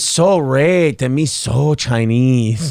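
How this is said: It is read in a put-on foreign accent. "But how I read it was, ... I didn't have to read it in the Chinese voice, but I did"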